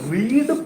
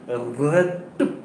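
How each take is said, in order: First: It is pronounced as the present-tense form. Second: It is pronounced as the past-tense form. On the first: The action happens habitually or now. "read present" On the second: The action happened in the past. "read past tense"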